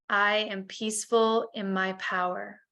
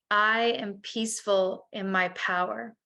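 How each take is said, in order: The two takes are said the same way.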